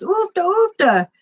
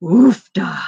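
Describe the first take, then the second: First: "Oofta, oofta" said much higher and urgently, lightly acted; a mild mock cry of "Oofta, oofta" to make the camel go; urging oofta. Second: A lightly acted "Oofta" of relief; relieved oofta. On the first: The rider urging his camel at the cliff, mildly acted and higher. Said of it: "and the guy goes". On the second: The rider after the camel stops, mild relieved exclamation. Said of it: "and he said".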